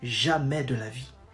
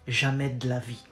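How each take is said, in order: First: It is said slowly, each word separate. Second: It is said fast, de and la run together.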